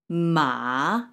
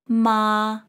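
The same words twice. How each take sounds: First: The pitch dips low then rises. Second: The pitch stays high and level. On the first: It means horse. "The third tone" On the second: It means mother. "the first tone here would be read as ma"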